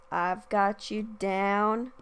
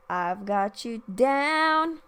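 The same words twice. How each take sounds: First: Slow "I've got you down" with "down" going down; falling tune. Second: Slow "I've got you down" with "down" rising, a bit louder; rising tune. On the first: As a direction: let the line drop at "down", slowly. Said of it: "in the original she goes". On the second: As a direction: lift the pitch up on "down", slowly. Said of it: "It goes up". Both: Shown as a demonstration.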